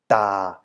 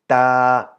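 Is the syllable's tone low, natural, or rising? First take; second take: low; natural. First: The syllable is said with a low, deep tone. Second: The syllable is said with the natural unmarked tone. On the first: "the low or deep tone is produced by adding the first tone mark" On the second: "tone is just the natural version"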